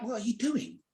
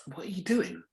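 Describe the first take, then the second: First: Higher, confrontational working class demand; blunt challenge. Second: Said in the usual way. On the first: Retold or imitated. To the stranger touching his hair, a higher blunt challenge. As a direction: pitch it up and square up to him. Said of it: "I'm a working class kid". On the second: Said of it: "I'm like".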